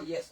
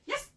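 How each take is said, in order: First: It is said in a flat, unexcited voice. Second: It is said in a happy, upbeat voice.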